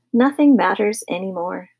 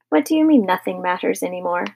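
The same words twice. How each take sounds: First: Understated gloomy resignation; mournful. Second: Puzzled challenge. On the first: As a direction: give up, mildly mournful. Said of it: "said Mister Carmody mournfully". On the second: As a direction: question his gloom in mild disbelief. Wife questions husband's gloomy words. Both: A narrator's reading.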